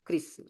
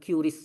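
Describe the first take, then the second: First: The word is said as one syllable. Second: The word is said with two syllables. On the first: The speaker calls it right. "Yang betul penyebutannya kris ya" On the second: The speaker calls it wrong. "bukan QRIS ya"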